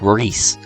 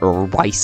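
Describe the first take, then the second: First: The vowel is a long 'ee' sound. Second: The vowel is an 'eye' sound. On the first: The speaker calls it right. "I would have pronounced it like Reese" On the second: The speaker calls it wrong. "Anybody who pronounces it Rice is just wrong"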